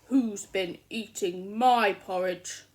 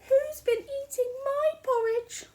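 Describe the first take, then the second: First: The voice is loud, low and growly. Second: The voice is soft, quiet and gentle. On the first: "in a loud growly voice" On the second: "in a soft gentle voice"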